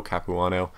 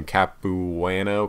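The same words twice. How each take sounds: First: Capuano said softly in one go, with "ahn" in it; softer, quicker try at Capuano, with an open "ah"; second pronunciation attempt. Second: Capuano sounded out slowly, with a flat "an" as in "can"; slow, unsure attempt at Capuano, feeling out each syllable; tentative pronunciation. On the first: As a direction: say Capuano as Cap-oo-AH-no, without stretching it. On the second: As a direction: stretch Capuano out syllable by syllable, Cap-oo-AN-o. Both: Shown as a demonstration. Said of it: "I don't know how to say his name".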